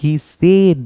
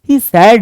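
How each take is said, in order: First: The vowel in said sounds like bed. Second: The vowel in said sounds like sad. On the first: The speaker calls it right. "बल्कि he सेड that होगा" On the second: The speaker calls it wrong. "He सैड नहीं"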